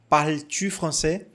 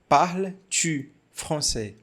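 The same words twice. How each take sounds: First: It is said quickly, at a normal pace. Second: It is said slowly, with a vowel after parles. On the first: "Mas falando rápido, normal" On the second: "Quando a gente fala devagar, parece que tem um som de A"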